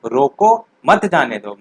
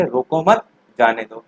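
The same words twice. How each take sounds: First: Slow, with a clear break after रोको: रोको, मत जाने दो; teacher reading रोको, मत जाने दो with the comma after रोको; pause after रोको. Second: Slow, with a clear break after मत: रोको मत, जाने दो; teacher reading रोको मत, जाने दो with the comma after मत; pause after मत. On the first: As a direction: stop briefly after रोको, then read मत जाने दो as one phrase. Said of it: "इसमें यहाँ पर आप कॉमा लगाएंगे तो आप क्या पढ़ेंगे इसे". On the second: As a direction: read रोको मत together, pause, then जाने दो. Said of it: "रोको मत के बाद कॉमा लगाएंगे, तब आप क्या पर रुकेंगे".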